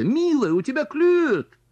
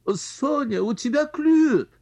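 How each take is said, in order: First: High excited squeal; squealing aunt. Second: High squeal of excitement; shrill aunt's squeal. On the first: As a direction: squeal it out, louder. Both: Acted. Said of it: "взвизгнула тётя".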